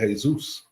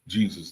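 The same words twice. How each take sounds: First: The name is said the Spanish way. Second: The name is said the English way. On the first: "the Spanish people ... They say Jesus" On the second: "they don't say Jesus"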